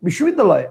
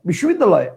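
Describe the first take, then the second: First: The word is said in one unbroken chunk. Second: The word is said in one unbroken chunk.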